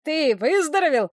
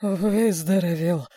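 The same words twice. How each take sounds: First: Excited. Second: Slow, barely moving tongue; mumble, drained and worn out; exhausted mumble. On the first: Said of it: "взволнованный голос Кузи". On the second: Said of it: "еле ворочая языком, пробормотал Потапов". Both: A narrator's reading.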